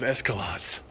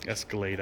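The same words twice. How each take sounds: First: "Escalades" ending like "lots"; joking mispronunciation. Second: "Escalade" ending like "laid", said low; corrected pronunciation. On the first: Ribbing modern Cadillacs, mangled "Escalades". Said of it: "I'm joking". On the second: Owning up to the joke, proper "Escalade". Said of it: "I know what it's called". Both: Shown as a demonstration.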